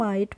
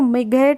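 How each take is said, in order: First: The word is read with a long i and silent gh. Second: The word is read with a short i and a sounded gh. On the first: The speaker calls it right. "हम माइट पढ़ते हैं" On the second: The speaker calls it wrong. "मिघेट नहीं पढ़ेंगे"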